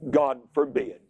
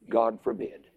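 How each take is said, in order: First: It is said loudly. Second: It is said at normal, quieter volume.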